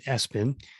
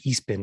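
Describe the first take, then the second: First: It is said as S, then Pin. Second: It is said as E, then Spin. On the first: This is the company's own way of saying it. "I believe they pronounce it S-Pin" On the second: This is the speaker's own way of saying it. "as I like to call it"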